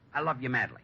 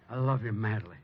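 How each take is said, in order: First: It is said flatly, without feeling. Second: It is said with feeling, as if meant.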